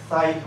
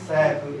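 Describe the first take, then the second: First: The first syllable has the vowel sequence ai. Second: The first syllable has a long ee vowel.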